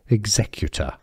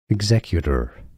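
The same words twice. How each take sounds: First: British pronunciation, with a clear T and no R. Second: American pronunciation, with a flapped T and an R. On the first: "U K pronunciation" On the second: "in American English it's similar, just that they use a flap T that sounds like a D"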